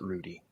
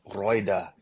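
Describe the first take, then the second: First: The name is said with an American pronunciation. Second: The name is said with a German pronunciation. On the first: This is how the family says it. "but we pronounce it Rudy" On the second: This is how it would be said in Germany. "if I were really in Germany, it would be like Reuda"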